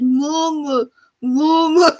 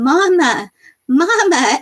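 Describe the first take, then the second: First: Put-on higher, squished baby whimper, lightly done; lightly imitating a stuck toddler's little cry; baby calling mama. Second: A mild imitation of a baby's cries for mama, higher; lightly voiced toddler reaching out; baby calling mama. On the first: Mother retelling her baby stuck in crib bars, mild baby voice. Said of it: "She's like". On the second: Mother retelling her baby calling for her, lightly imitating. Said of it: "And she starts going".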